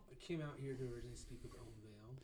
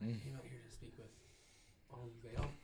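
First: It is said in a normal voice. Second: It is said in a hushed voice.

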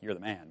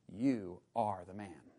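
First: It sounds admiring, like praise. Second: It sounds grave and accusing.

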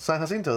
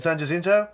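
First: The name is pronounced the Spanish way. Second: The name is pronounced the English way. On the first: The speaker calls it right. "That word's in Spanish" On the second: The speaker calls it wrong. "you're saying it wrong"

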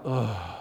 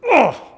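First: The groan sounds tired and worn out. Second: The groan sounds angry.

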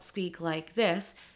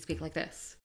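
First: Each word is said separately, without linking. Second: The words run together with sounds linked. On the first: The speaker calls it wrong. "we don't speak like this" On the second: The speaker calls it right. "we speak like this"

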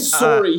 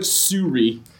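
First: The word is said with a standard vowel. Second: The word is said with an exaggerated Canadian vowel. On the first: "He didn't say sorry" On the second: "he says like suri. Like, he really leans into it"

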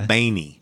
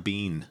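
First: The name is said like Baney. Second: The name is said like Bean. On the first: This is how relatives in California say it. "my California cousins say Baney" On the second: This is a common mistaken form. "As long as you don't say Al Del Bean"

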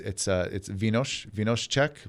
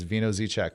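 First: The first word is said as 'vee-nos'. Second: The first word is said as 'vino' plus 'z'. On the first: This is how locals say the name. "if I was going to get technical" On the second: This is how most people will recognize it. "everyone in America will understand it as"

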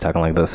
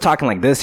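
First: The voice sounds flat and bored. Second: The voice sounds lively and excited. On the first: "I'm only using my really bored voice" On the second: "usually with that excitement I have"

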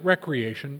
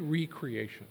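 First: The first syllable sounds like 'rek'. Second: The first syllable sounds like 'ree'. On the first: Leisure or fun activity. "We pronounce it recreation" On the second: Being created anew. "but it's really recreation"

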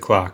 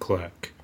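First: It is said the Australian way, like 'clark'. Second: It is said the American way, like 'clurk'.

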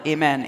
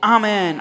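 First: The word is said in an American way. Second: The word is said in a non-American way.

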